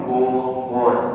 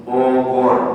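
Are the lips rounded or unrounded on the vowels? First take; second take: rounded; rounded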